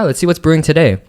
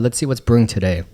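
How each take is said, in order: First: It is said with high energy. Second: It is said with low energy.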